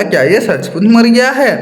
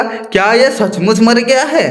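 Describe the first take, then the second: First: Higher sly question; lightly voiced crafty jackal; cunning. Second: Slow, higher sly question; a touch of crafty jackal; cunning. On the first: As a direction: fish for the truth with a sly tone. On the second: Acted. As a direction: ask it slyly, probing. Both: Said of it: "वो चालाकी से बोला".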